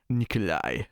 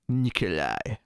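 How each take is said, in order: First: The name ends with a soft I-like glide. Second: The name ends with a soft I-like glide.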